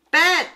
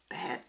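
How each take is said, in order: First: Sharp loud self-scold. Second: Soft muttered self-scold; quiet. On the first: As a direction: bark it at yourself. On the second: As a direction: mumble it under your breath. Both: Real, not acted.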